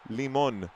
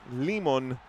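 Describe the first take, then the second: First: The stress is on the last syllable. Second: The stress is on the first syllable. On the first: The speaker calls it right. "You got to put the accent over the O" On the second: The speaker calls it wrong. "Not limon"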